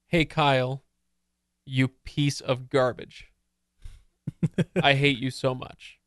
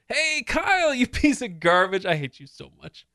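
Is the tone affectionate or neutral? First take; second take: neutral; affectionate. First: The words are read in a plain, literal tone. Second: The words are said in a playful, affectionate tone. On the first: The insult is meant literally. "if you just get a transcript of someone saying" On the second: The insult is not meant literally. "But if I say them like this"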